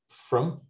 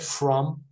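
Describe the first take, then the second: First: The word has a weak, reduced vowel. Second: The word has a full, clear vowel. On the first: "usually becomes from" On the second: "the strong form is from"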